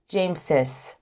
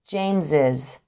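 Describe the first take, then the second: First: The possessive ending has an S sound. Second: The possessive ending has a Z sound. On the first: The speaker calls it wrong. "not James's" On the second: The speaker calls it right. "with a Z sound"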